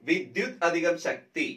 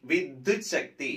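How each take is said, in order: First: വിദ്യുത് അധികം ശക്തി spoken slowly as separate parts; slow split parts. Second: Vidyut Shakti run together as one word; joined form. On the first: Teacher splitting വിദ്യുത് അധികം ശക്തി slowly for students. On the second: Teacher giving the joined form Vidyut Shakti to students. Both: Shown as a demonstration. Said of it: "വിദ്യുത് അധികം ശക്തി എന്താണ്?".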